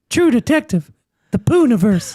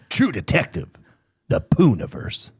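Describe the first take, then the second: First: It is read in an ordinary speaking voice. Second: It is read in a dramatic announcer voice. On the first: The speaker calls it wrong. "I don't know if I needed to read that like" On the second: The speaker calls it right. "supposed to read that in like the announcer voice"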